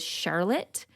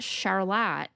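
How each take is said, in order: First: It is said like the common first name. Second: It is said like the town's local name. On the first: This is how the woman's name was probably said. "her name was Charlotte" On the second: This is how the town's name is said today. "not Charlotte"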